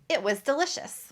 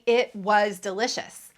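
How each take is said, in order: First: The pronoun and verb are reduced and fast. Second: Every word is pronounced fully and clearly. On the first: The speaker calls it right. "I pronounce it, pronouns are reduced and the verb be is reduced" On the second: The speaker calls it wrong. "I don't say it was delicious"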